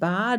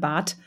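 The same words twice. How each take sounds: First: The word ends with a voiced d sound. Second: The word ends with a voiceless t sound. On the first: The speaker calls it wrong. "da sagst du ja nicht" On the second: The speaker calls it right. "man spricht kein D, sondern Bad"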